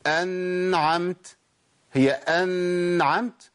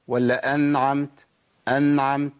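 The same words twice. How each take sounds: First: "أنعمت" with the ن drawn out on a raised pitch; over-held noon. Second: "أنعمت" with a brief, measured ن at usual pitch; correctly timed noon. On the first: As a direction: slowly linger on the ن in "أنعمت". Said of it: "عدم تمكين التوسط أقول". (تطويل زمن النون في "أنعمت") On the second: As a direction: give the ن of "أنعمت" only a moderate beat. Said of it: "ما أزودش الزمن شوية". (نون ساكنة بزمن متوسط في "أنعمت") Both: Shown as a demonstration.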